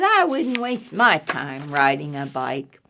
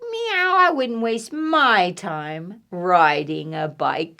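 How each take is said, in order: First: Lower, understated catty disdain; dismissive cat, recapped. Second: Disdainful cat. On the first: Reader repeats cat's thought, lower understated disdain. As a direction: sink low, dismissing the idea. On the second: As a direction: stretch it out as an unimpressed cat. Cat's thought voiced in story. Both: Acted.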